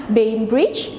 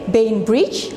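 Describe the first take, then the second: No difference in how they are said.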